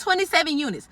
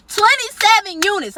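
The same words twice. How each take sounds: First: Said in the usual way. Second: "twenty-seven" hit high and slow; emphatic repeat. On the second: Retold or imitated. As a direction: hammer the number home in outrage.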